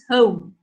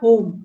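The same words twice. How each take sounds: First: The vowel glides from one sound to another. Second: The vowel is one steady pure sound. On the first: The speaker calls it right. "it's home" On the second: The speaker calls it wrong. "It's not home"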